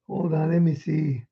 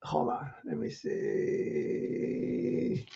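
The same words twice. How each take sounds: First: Said in the usual way. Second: Slow, breathy whispered hold on; hushed under the breath while searching. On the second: Real, not acted. Santa mutters to himself while finding the letter, whispered.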